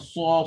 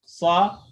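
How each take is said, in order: First: The syllable is said with rounded lips. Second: The syllable is said without lip rounding. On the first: The speaker calls it wrong. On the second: The speaker calls it right.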